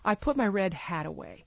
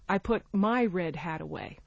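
First: The stress falls on the word hat. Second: The stress falls on the word my. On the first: It answers what was put away. "hat is the last content word of the sentence" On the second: It was one's own hat, not another's. "As opposed to someone else's"

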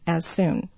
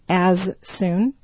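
First: The two s sounds merge into one. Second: Both s sounds are pronounced separately.

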